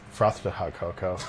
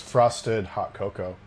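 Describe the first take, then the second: First: The first word has a lisped th sound. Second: The first word has a plain s sound.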